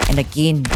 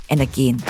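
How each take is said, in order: Both takes have the same delivery.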